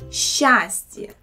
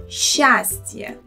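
The two takes are said the same way.

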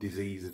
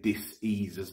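First: The word is said as one smooth unit. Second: The word is split into dis and ease. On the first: It is an ordinary illness. The speaker calls it wrong. "not diseases" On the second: It is a lack of ease and comfort. The speaker calls it right. "I say diseases ... So it's a dis-ease"

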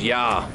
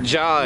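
First: The name starts with a Y sound. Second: The name starts with a J sound. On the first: The speaker calls it right. "it's Yah" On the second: The speaker calls it wrong. "It's not Jah"

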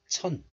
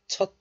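First: The word ends in a nasal n sound. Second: The word ends in a stop consonant. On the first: This is the word before a nasal sound. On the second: This is the word said on its own.

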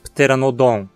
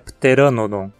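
First: The stress is on the last syllable. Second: The stress is on the second syllable. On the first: The speaker calls it wrong. "Aposto que você diz Pteranodon. Mas lembre-se de que o acento nunca cai na última sílaba, então essa pronúncia não está certa" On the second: The speaker calls it right. "Ra acaba sendo a sílaba tônica. A pronúncia é pteranodon"

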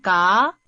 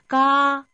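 First: The pitch rises from mid to high. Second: The pitch stays high and level.

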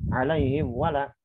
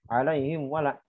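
Both takes have the same delivery.

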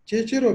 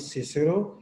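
First: The name begins with a ch sound. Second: The name begins with an s sound. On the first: This is how a Latin speaker would pronounce it. "चे की आवाज, जो लैटिन है वो इस तरह से प्रोनाउंस करेगा" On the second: This is the pronunciation most scholars use. "सी की आवाज"

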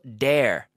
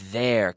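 First: The word starts with a hard d sound. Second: The word starts with a th sound, tongue out. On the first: The speaker calls it wrong. "No digo dare, no quiero oír dare como un de" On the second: The speaker calls it right. "con la lengua fuera de la boca"

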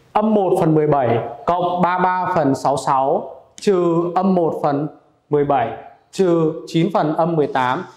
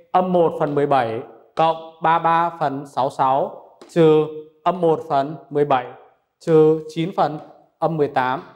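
Both takes have the same delivery.

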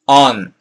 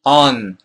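No difference in how they are said.

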